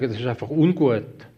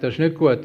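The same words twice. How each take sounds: First: A gentler, milder take on ungut, voice eased down; softened positive wording. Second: Said in the usual way. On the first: Retold or imitated. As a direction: say ungut as the kind, softened version. (nachgemachte sanfte, beschönigende Stimme) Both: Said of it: "Du musst es positiv sagen".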